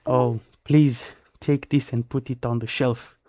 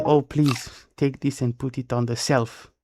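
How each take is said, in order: First: "shelf" said with a clear sh sound. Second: "shelf" said as self, an s for the sh; imitating mispronounced shelf. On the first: Shown as a demonstration. Demonstrating the right word "shelf" said with sh. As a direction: say "shelf" as shelf, sh at the start. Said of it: "So would say like". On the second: Imitating friends who say "shelf" like self. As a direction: mimic learners saying "shelf" as self. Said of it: "And say".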